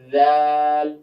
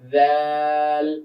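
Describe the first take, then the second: First: It begins with a soft voiced 'th' sound. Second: It begins with a soft voiced 'th' sound.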